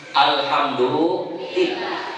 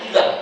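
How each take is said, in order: First: It is said slowly with every sound clear. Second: It is rattled off very fast and clipped. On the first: The speaker calls it right. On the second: The speaker calls it wrong.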